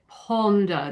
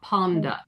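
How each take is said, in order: First: The O vowel is said with rounded lips. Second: The O vowel is said with unrounded lips. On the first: The speaker calls it right. "we always round it" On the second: The speaker calls it wrong. "not ponder"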